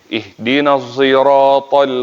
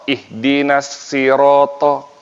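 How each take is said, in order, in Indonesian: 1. Huruf s pada sirat bercampur dengan bunyi z. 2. Huruf s pada sirat diucapkan sebagai s polos. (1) "pakai semizai ismam" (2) "Mereka membaca huruf sin, bukan shad"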